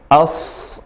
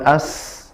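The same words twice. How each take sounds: First: The s sound is thick and heavy. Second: The s sound is thin and light. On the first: The speaker calls it right. "sa-nya tebal" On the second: The speaker calls it wrong.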